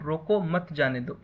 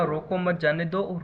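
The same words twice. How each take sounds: First: "रोको" set apart, then "मत जाने दो"; comma after रोको. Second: "रोको मत" run together, then "जाने दो"; group "रोको मत" as one unit, break before "जाने दो"; don't stop them: "रोको मत", "जाने दो"; comma after मत. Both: Shown as a demonstration. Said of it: "एक कॉमा का डिफरेंस है".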